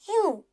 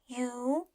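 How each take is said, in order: First: The pitch falls sharply from high to low. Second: The pitch rises from middle to high.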